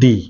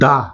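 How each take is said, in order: First: The vowel is a long, high 'ee' sound. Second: The vowel is a short, neutral 'uh' sound. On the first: The next word starts with a vowel sound. "Vowel সাউন্ডের আগে যে এখানে টিএইচটা বসছে সেটা হচ্ছে দি" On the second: The next word starts with a consonant sound. "Consonant সাউন্ডের আগে যেটা বসছে টিএইচই সেটা হচ্ছে দা"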